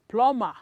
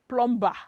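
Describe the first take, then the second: First: The b sound is left out entirely. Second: The b sound is pronounced in the middle. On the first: The speaker calls it right. "the letter B is silent" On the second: The speaker calls it wrong. "You don't pronounce it as plumber"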